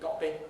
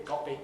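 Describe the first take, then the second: Both takes have the same delivery.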